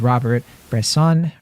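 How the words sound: The name is said with English pronunciation. The speaker calls it wrong.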